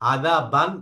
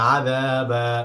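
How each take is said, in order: First: The word ends with an n sound. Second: The word ends with a long vowel. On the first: The reading continues without stopping. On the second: The reader stops at the end of the word.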